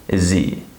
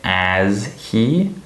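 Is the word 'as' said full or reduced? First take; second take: reduced; full. First: The word 'as' is reduced to 'is'. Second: The word 'as' has a full vowel. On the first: The speaker calls it right. "The word as is reduced to is" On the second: The speaker calls it wrong. "I don't say as he"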